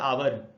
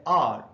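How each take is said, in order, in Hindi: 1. इसे दो सिलेबल में बोला जाता है, ow-er। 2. इसे एक छोटे सिलेबल में बोला जाता है, ar। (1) "हम लोग इसको बोल लेते हैं आवर" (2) "इंग्लिश मीडियम में पढ़ने वाले लोग इसको बोलते हैं आर"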